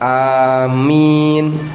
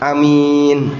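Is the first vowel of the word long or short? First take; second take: long; short. First: The first vowel is held long. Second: The first vowel is kept short. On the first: "A-nya dua harokat, amin. A-nya panjang, minnya lebih panjang" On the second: "A-nya pendek, minnya yang panjang... tapi pendek, satu harokat"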